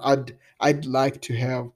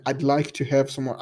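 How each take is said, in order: First: "I'd" repeated slowly and spelled out, "I'd like to have" at half speed; slow down and isolate "I'd"; slow clear demo. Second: "I'd like to have some more" run together, "I'd" a quick /ad/; natural contracted I'd. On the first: Teacher slowly isolating the contraction for student, slow demo. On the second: Teacher showing student the contracted would, natural speed. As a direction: say "I'd" as one short clipped syllable. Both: Shown as a demonstration. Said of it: "sai só um d".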